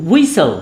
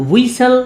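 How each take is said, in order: The two takes are said the same way.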